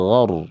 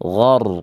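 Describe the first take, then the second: The two takes are said the same way.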